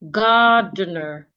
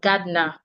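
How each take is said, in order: First: The final syllable has a reduced schwa vowel. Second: The final syllable has a full, unreduced vowel. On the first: The speaker calls it right. "the E R at the end can also be reduced into a schwa" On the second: The speaker calls it wrong. "instead of gardener"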